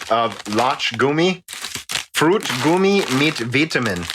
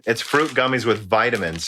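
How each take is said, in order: First: Put-on German pronunciation; American attempt at a German accent; reading German. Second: Said in the usual way. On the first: Shown as a demonstration. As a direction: read the label aloud in German. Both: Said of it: "see me read German".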